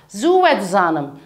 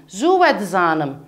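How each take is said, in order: No difference in how they are said.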